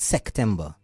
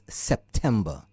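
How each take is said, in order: First: It is said with a C sound instead of P. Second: It is said with a clear P sound. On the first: The speaker calls it wrong. "it has a P and not a C. It's not September" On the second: The speaker calls it right. "it's September"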